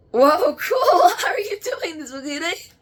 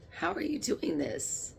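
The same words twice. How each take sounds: First: High, loud, laughing shout of amazement; delighted shout. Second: Said in the usual way. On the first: Real, not acted. Medium amazed at the spirit's trick, shouting with laughter.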